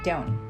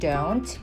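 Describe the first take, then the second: First: The final t sound is dropped. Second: The final t sound is pronounced. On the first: "just dropping that sound" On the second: "instead of saying don't"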